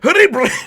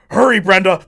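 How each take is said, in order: First: It is said in an exaggerated stereotypical accent. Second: It is said in a natural everyday accent. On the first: The person is playing a stereotype for money. "you want me to do the stereotypical accent? ... Puts on that accent" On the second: This is how the person really talks. "This is the Indian accent. Like I I'm from India. This is my accent"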